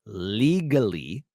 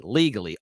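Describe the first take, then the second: First: Legally drawn out very slowly, every syllable clear; a very slow, exaggerated legally, correcting himself; careful pronunciation. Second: Legally said quickly and slurred; legally tossed off and not fully pronounced; slurred word. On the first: Shown as a demonstration. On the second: Real, not acted. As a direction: rush through legally so it comes out mumbled. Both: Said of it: "I didn't pronounce that word".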